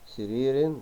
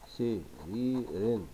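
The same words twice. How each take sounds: First: Said in the usual way. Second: "سرير" slowly split into its syllables; very slow, separated "سرير". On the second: Shown as a demonstration. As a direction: dictate "سرير" piece by piece as you write. Dictates word while writing.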